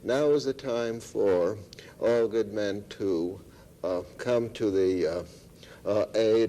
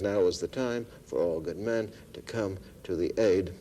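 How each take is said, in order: First: It breaks into pauses filled with hesitation sounds. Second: It flows smoothly without any pauses or fillers. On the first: The speaker calls it wrong. "I could pause there" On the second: The speaker calls it right. "he rejunctures"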